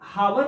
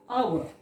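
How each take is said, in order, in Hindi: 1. यह शब्द h ध्वनि से शुरू होता है। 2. यह शब्द स्वर ध्वनि से शुरू होता है। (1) "तो ये हावर नहीं पढ़ना है, हा नहीं है" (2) "आवर, इसलिए एन आवर अगो"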